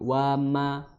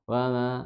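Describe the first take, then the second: First: The lips meet again firmly for the m. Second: The lips do not meet again firmly for m. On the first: The speaker calls it right. "maka dipertemukan lagi karena untuk menunaikan sif, apa, huruf mim" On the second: The speaker calls it wrong. "jangan wa ma"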